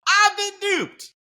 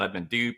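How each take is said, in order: First: It is said with lively excitement. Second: It is said flatly, without enthusiasm.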